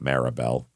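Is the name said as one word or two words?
one word. The name is run together as one word. The speaker calls it wrong. "not Maribel"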